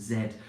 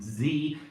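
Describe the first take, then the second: First: It is said with a British accent. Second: It is said with an American accent. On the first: "instead of" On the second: "she now speaks with a uh, an American English accent. And she says"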